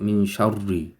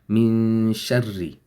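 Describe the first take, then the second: First: The r sound is heavy. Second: The r sound is light. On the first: The speaker calls it wrong. "It's not min sharri" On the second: The speaker calls it right. "Here ra is weak"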